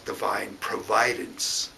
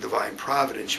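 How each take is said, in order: First: The stress is on the second syllable. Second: The stress is on the first syllable. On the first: "I try to change the um, the accent on the word" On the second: "instead of saying divine providence"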